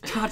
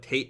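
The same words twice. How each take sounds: First: The word is said with a Japanese pronunciation. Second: The word is said with an English pronunciation. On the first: The speaker calls it right. "and I'm like, it's Tate" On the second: The speaker calls it wrong. "But in the West, sometimes on, like, gamer channels, they call it Tate mode"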